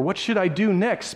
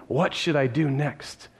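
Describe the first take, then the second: First: Said in the usual way. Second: Slow, lower, wondering aloud; a man slowly asking himself what comes next; slow pondering. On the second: Shown as a demonstration. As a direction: turn the question over slowly. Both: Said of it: "at least he's thinking".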